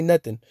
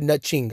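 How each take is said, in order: First: Said in the usual way. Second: "nothing" pronounced "nutching", with ch for th; deliberate NUT-CHING. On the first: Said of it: "I said nothing". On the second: Shown as a demonstration. Fan confirming listeners heard correctly, deliberate nutching. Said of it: "I didn't say nothing".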